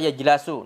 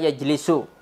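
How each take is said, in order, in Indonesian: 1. Vokal kedua adalah 'a'. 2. Vokal kedua adalah 'i'. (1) "atau jalasa yajlasu, enggak boleh" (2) "Itu antum harus hafalkan"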